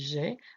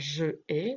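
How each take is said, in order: First: The vowel of je is dropped and joined. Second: Both vowels are said separately, je then ai. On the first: The speaker calls it right. "donc on dit j'ai" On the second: The speaker calls it wrong. "on ne peut pas dire je ai"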